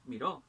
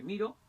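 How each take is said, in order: First: Miró said mi-RÓ; stress on last syllable. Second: Miro said MI-ro; stress on first syllable. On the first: Teacher contrasting word stress, miró stressed on RÓ. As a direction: land miró on its final syllable. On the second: Teacher contrasting word stress, miro stressed on MI. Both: Shown as a demonstration. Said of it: "el acento puede variar".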